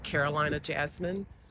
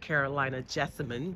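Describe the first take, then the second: First: The second word is said as jasmine. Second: The second word is said as jessamine. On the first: The speaker calls it wrong. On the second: The speaker calls it right.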